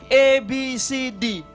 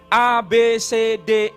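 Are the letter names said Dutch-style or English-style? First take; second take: English-style; Dutch-style. First: The letters get English-style names, like ay, bee, see. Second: The letters get Dutch-style names, like ah, beh, tseh. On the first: This is how Malaysians say the alphabet. "Di Malaysia nggak ada pelafalan kayak begitu" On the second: This is how Indonesians say the alphabet. "Kita melafalkannya apa?"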